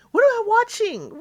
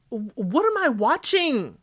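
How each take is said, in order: First: "What am I watching?" leaps much higher and a touch louder; disbelieving high repeat. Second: Said in the usual way. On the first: Real, not acted. Host repeating her reaction to the goofing off, disbelieving high repeat. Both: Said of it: "What exactly did I just watch".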